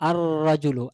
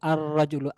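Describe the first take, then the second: No difference in how they are said.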